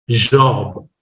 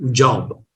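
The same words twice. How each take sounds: First: British pronunciation. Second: "Job" as Indians say it, with a firm J; an Indian-English "Job"; Indian pronunciation. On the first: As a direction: say "Job" the British way, almost no friction on J. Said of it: "British speaker can". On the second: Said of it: "Indians pronounce as job". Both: Shown as a demonstration.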